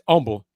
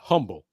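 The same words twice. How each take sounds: First: It is pronounced the way the town says it. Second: It is pronounced like the ordinary adjective. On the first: It names the town. The speaker calls it right. "that's the town" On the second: It is the ordinary word meaning modest. The speaker calls it wrong. "not the the word, you know, the adjective"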